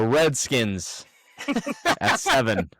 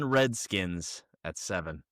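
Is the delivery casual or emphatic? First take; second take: emphatic; casual. First: It is said firmly and with conviction. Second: It is said lightly and casually. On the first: The speaker stands firmly behind it. "with a little bit more conviction that time" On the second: It is mentioned in passing. "casually say something problematic"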